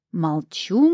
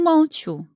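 First: Mock surrender, palms up. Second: Second «молчу» pitched high and falling; higher mock surrender. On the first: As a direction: back off playfully. (шутливо сдаётся, первое «Молчу») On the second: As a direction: give in with a playful squeak. (высокое шутливое «молчу») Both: A narrator's reading. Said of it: "поднял руки в жесте капитуляции тот".

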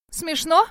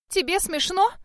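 First: A much higher, louder indignant question. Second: An even higher rise on «Тебе смешно?», stress on «Тебе»; outraged repeat. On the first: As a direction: she bristles at being laughed at. (возмущённо, высоко и громче: «Смешно?») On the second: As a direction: she presses the point, rising higher. (ещё выше, с ударением на «Тебе»: «Тебе смешно?») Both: A narrator's reading. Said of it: "Шерил пылала гневом".

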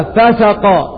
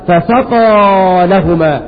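First: "فسقى" misread as "fasiqa", the sinning sense; common misreading. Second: "فسقى لهما" read slowly as "fasaqa lahuma", the watering sense; correct reading. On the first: Teacher showing the mistake some readers make, plainly. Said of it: "فهناك البعض يقرأها". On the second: Teacher slowly giving the correct recitation. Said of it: "ولكن قراءتها الصحيحة". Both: Shown as a demonstration.

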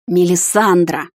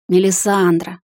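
First: Slow, drawn-out growl of a name; growled reprimand. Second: Gently coaxing name-call; smiling. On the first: Hunter calling his bride down from the tree, growling. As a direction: growl it with mild impatience. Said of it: "зарычал он". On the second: Captain coaxing his bride down, smiling. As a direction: say the name with a smile. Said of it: "улыбнулся мужчина". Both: A narrator's reading.

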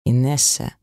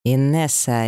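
First: Warning tone. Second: A lightly voiced bark of the name; mild bark. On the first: Husband warning his wife: a hint of menace. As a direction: say her name as a threat, understated. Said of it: "угрожающе и предупреждающе произнёс Макар". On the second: Husband silencing his wife: a mild bark. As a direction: snap her name to shut her up, understated. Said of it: "рявкнул на неё Макар". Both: A narrator's reading.

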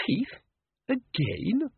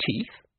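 First: High, incredulous repeat; Teeth? Again? rising in exasperated surprise; dismayed disbelief. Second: Said in the usual way. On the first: A narrator's reading. Susan sees the teeth again, in high dismayed disbelief. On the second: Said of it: "said Susan aloud".

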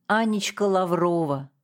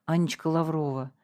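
First: "Анечка Лаврова" spat back bitterly, falling at the end; bitter, angry echo of "Анечка Лаврова"; angry repeat. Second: Said in the usual way. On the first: A narrator's reading. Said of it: "зло повторил Николай Петрович". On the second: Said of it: "на могиле отца есть табличка".

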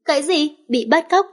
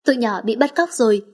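First: High, incredulous "bị bắt cóc?" rising at the end; shocked question. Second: Understated worry, falling at the end on "cóc rồi"; worried statement. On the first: Acted. Echoes kidnapping news in shock. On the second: A narrator's reading. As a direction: report "bị bắt cóc" as grim fact, lightly anxious. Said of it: "Cô lo lắng lên tiếng".

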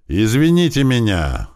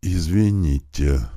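First: Louder, higher, forced apology shout; louder cry. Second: Slow, mumbled through smashed lips; lisping apology. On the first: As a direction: cry it out under orders. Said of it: "громче крикнул Михайлов". (громко выкрикнуть извинение) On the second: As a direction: barely get the word out. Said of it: "прошепелявил тот разбитыми в мясо губами". (медленно, шепеляво, разбитыми губами) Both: A narrator's reading.

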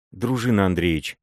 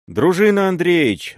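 First: Name him timidly, afraid of what he plans; frightened. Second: High, loud call from below; shouted warning. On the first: Wife pleads with her armed husband, mildly frightened. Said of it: "сказала она в испуге". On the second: Serebryany shouts up the stairs to warn the boyar, calling out loud. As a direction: yell his name to warn him. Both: A narrator's reading.

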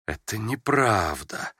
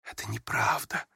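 First: Slow, firm, deliberate «Это неправда»; firmly. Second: Much softer, nearly breathed «Это неправда»; almost whispered. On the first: Prince insisting to the young woman, slow and firm «Это неправда». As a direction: plant each word of «Это неправда» with resolve. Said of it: "повторил он решительно". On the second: Prince quietly contradicting the young woman, almost whispering «Это неправда». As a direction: say «Это неправда» under the breath, barely voiced. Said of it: "тоже почти шёпотом". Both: A narrator's reading.

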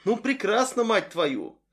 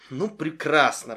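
First: Higher annoyed exclamation; angry outburst. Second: Flat disappointed sigh; upset. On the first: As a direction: snap it in exasperation. Frustrated outburst. (раздражённый возглас) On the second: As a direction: say it let down and falling. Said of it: "расстроенно проговорила она". (расстроенно) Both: Acted.

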